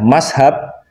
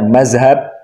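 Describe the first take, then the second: First: It is said in the absorbed Indonesian form with s. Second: It is said in the absorbed Indonesian form with z. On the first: The speaker is far from the santri tradition. "Kalau mengucapkannya mashab" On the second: The speaker is not a santri. "Tapi kalau mengucapkannya mazhab"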